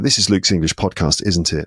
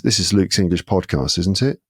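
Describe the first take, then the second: First: The pitch falls on the final tag. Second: The pitch rises on the final tag. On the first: The speaker expects the listener to agree. "if it's going down, you're basically sort of compelling someone to say yes" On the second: The speaker is unsure and wants confirmation. "the ones that go up is when you're you're not sure, you need confirmation"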